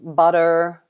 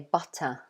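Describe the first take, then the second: First: The final r is pronounced strongly. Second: It ends in an open vowel, no r. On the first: "in American English, they pronounce it quite strongly" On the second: "in Britain, we don't usually do that. So instead, I would say butter"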